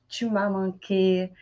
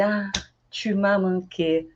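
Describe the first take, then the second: First: Tu m'as manqué, slow and soft; tender French phrase. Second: Slow, gentle tu m'as manqué; tender. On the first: Teacher modeling missing someone. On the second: Teacher modeling a reunion phrase. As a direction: say it fondly. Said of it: "Aí tá assim". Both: Shown as a demonstration.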